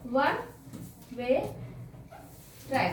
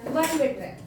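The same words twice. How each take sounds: First: one, way, track each said alone with long pauses between; word by word. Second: Said in the usual way. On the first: Shown as a demonstration. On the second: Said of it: "one / way / track है".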